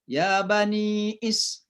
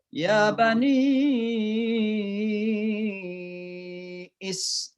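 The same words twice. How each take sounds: First: The vowel before Israil is held very briefly. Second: The vowel before Israil is held very long. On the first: "ya langsung ya dua saja" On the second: "Atau harus panjang enam. ... ya enam harakat"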